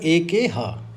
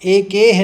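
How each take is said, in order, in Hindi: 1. अंतिम h ध्वनि पूरी तरह बोली जाती है। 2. अंतिम h ध्वनि कमज़ोर है या छूट जाती है। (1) "ह का संस्कृत में पूरा उच्चारण करना है" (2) "एकेह नहीं कहेंगे भाई"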